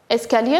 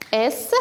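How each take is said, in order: First: Said in the usual way. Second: "escalier" broken into separate syllables, with clear pauses; split into syllables. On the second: Shown as a demonstration. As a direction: say "escalier" syllable by syllable, a gap after each. (« escalier » découpé en syllabes, avec des pauses) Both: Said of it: "savoir combien y a-t-il de syllabes".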